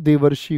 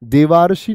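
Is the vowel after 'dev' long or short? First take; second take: short; long. First: The vowel after 'dev' is short. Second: The vowel after 'dev' is long. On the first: The speaker calls it right. "देवर्षि होता है" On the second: The speaker calls it wrong. "देवार्षि नहीं होता"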